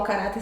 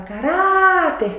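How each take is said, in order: First: Said in the usual way. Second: "caráter" with rá raised high and stretched; stress on RÁ. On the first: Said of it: "você vai chamar o caráter". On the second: Shown as a demonstration. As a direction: exaggerate the long, high rá in "caráter". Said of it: "o R A que é a mais forte".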